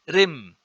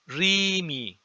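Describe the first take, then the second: First: The word ends in a consonant. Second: An added i vowel is heard in the word. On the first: The speaker calls it wrong. "This is not Rim" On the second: The speaker calls it right. "there is a vowel in between here, which is the I, iota"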